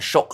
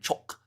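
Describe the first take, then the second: First: The word begins with a soft 'sh' sound. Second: The word begins with a sharp 'ch' sound. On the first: The speaker calls it wrong. "I'm saying Shock rather than Choc" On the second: The speaker calls it right. "it would be pronounced uh, Choc"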